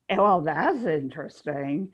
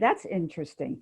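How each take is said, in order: First: It is said with a sarcastic punch. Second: It is said plainly, without punch.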